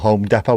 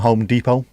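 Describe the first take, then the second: First: Depot is said the way locals here say it. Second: Depot is said the way the store's home country says it.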